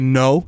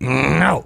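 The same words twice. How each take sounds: First: The word is said in a plain voice. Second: The word is said with a low growl. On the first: The speaker calls it wrong. "Don't just say no to your dog" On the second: The speaker calls it right. "imitates the mother's like uh, scolding growl"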